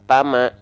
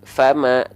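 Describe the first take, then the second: First: The word begins with a p sound. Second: The word begins with an f sound. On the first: The speaker calls it wrong. "tapi kita baca pama" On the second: The speaker calls it right. "Yang harusnya kita baca fama"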